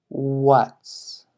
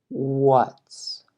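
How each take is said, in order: The two takes are said the same way.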